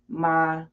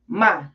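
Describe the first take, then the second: First: The pitch stays high and level. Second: The pitch falls sharply from high to low. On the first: It means mother. "first tone" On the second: It is an exclamation. "last tone, fourth tone"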